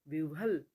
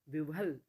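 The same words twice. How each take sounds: The two takes are said the same way.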